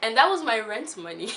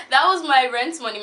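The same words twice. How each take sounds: First: Said in the usual way. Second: That was my rent money, louder and punched, stress on was; emphatic repeat. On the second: Real, not acted. Stressing to viewers that it was rent money, loud. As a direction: hammer the was home.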